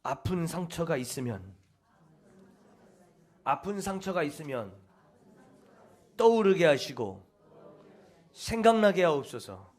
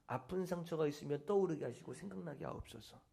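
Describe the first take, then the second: First: Recited prayer. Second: Much softer, hushed repeat of the prayer. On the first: Preacher demonstrates the healing prayer to the congregation, intoning. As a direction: intone it like a prayer, pressing harder at the end. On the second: Preacher repeats the prayer for the congregation, hushed. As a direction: breathe the prayer out quietly. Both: Shown as a demonstration. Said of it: "이것이 치유 기도문이에요".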